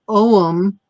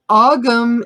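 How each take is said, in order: First: The word is said the modern Irish way. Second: The word is said the old Irish way. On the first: "modern Irish" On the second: "the old Irish pronunciation"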